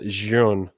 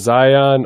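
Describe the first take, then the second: First: The name is said with one syllable. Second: The name is said with two syllables. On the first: The speaker calls it right. "oh, it's a Zhun. Of course it is" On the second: The speaker calls it wrong. "I called it Zion for so long"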